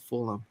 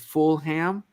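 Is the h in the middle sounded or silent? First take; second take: silent; sounded. First: The h in the middle is silent. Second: The h in the middle is sounded. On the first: It is the local way of saying it. The speaker calls it right. "I made a mental note to, to say it as Fulham" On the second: It follows the spelling, as an outsider would. The speaker calls it wrong. "as an American, when you see the spelling F U L H A M, our instincts is Fulham"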